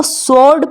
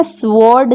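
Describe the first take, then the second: First: स्वॉर्ड said "sord", silent W; correct pronunciation. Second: स्वॉर्ड said "swôrd", W sounded; wrong pronunciation. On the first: Teacher modelling the word, स्वॉर्ड as "sord". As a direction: drop the W after S in स्वॉर्ड. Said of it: "इसको स्वॉर्ड पढ़ते हैं". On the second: Teacher showing what to avoid, स्वॉर्ड with audible W. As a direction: voice the W after S in स्वॉर्ड. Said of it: "नहीं पढ़ते हैं". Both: Shown as a demonstration.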